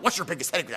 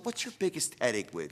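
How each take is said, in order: First: It is asked in a pushy, demanding tone. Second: It is asked in a soft, caring tone. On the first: The asker is pressing for an answer. The speaker calls it wrong. "it's not like" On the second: The asker is really interested and cares. The speaker calls it right. "you'll use your tonality"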